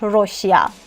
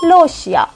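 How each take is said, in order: First: The word begins with an R sound. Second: The word begins with an L sound. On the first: The speaker calls it wrong. "ما نمیخونیمش روشیا" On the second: The speaker calls it right. "میگیم لوشیا"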